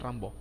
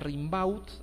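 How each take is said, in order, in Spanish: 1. El nombre se dice omitiendo las letras mudas. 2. El nombre se pronuncia tal como está escrito. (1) "pero se pronuncia Rimbaud" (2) "se escribe"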